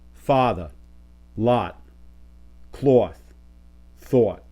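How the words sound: Said in a New York accent, strongly rounded.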